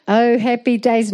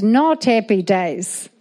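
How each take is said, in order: First: Said in the usual way. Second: "not" drawn out slowly before "happy days"; slow correction, weight on "not"; stress on NOT. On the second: Real, not acted. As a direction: lean hard and slow on "not".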